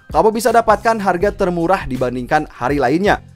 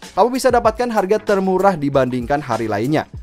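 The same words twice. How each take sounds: The two takes are said the same way.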